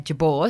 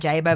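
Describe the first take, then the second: First: The surname is said in its original form. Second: The surname is said in its anglicised form. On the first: This is the original, proper form of the name. "Jabor was the proper pronunciation" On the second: This is the form most of the family uses. "it had been anglicised"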